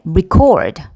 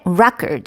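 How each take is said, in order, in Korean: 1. 강세는 두 번째 음절에 있어요. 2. 강세는 첫 번째 음절에 있어요. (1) "이거는 기록하다 동사가 되죠" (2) "record 하면은 첫 번째 음절에 강세가 있어요"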